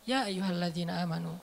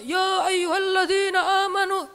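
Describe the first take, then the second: First: It is said calmly and relaxed. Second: It is said loudly, like shouting.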